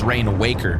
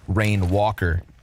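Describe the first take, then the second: First: The second word's vowel sounds like in 'wake'. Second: The second word's vowel sounds like in 'water'. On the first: "we've all read the word and decided it's Rain Waker" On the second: "What if it's a long A? Like water?"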